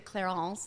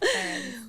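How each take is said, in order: First: The name is said with a French accent. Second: The name is said with a plain English accent.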